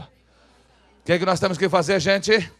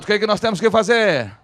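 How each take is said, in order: First: Slow, loud question to the crowd. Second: Belted question to the crowd; very loud question. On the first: Preacher asks the congregation what they must do, loud question. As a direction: project the question for all to repeat. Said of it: "Fala bem alto aí". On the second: Preacher presses the congregation to repeat it, very loud question. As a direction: push the question out harder, at high volume. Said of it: "Fala bem alto". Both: Shown as a demonstration.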